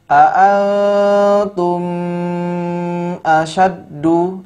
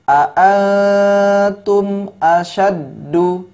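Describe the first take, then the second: First: The m sound is blurred into the next word. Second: The m sound is pronounced clearly and separately. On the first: The speaker calls it wrong. "tidak boleh seperti itu" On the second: The speaker calls it right. "tapi dijelas ya, dibuat jelas"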